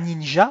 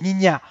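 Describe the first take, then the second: First: The word is pronounced the French way. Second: The word is pronounced the Dutch way. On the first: "on ne dit pas ninja" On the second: "en néerlandais, euh, on dit ninja"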